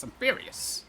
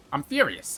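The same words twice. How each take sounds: First: High whispered mock fury. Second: Said in the usual way. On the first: Real, not acted. Gamer mutters his mock fury to himself in a high whisper. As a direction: hiss it under your breath.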